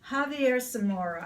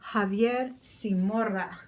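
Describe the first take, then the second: First: The name is said with English sounds. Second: The name is said with Spanish sounds.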